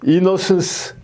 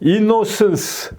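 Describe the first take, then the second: The two takes are said the same way.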